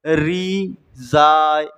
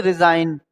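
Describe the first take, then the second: First: रिजाइन stretched slowly as "ree... zaa"; syllable by syllable. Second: रिजाइन in one smooth piece, the G silent; said directly. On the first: Teacher showing which letter goes unused, रिजाइन drawn out in pieces. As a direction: break रिजाइन into long, separate syllables. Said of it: "इसका use नहीं हो रहा है". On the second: Teacher showing the direct reading, रिजाइन said whole. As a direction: say रिजाइन straight through as "ri-zain". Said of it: "direct बोल रहा है". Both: Shown as a demonstration.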